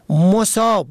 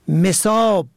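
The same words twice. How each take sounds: First: The first vowel is u. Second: The first vowel is i. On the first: Afflicted by misfortune. "به ضم اول" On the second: Watered, filled with water. "به کسر اول"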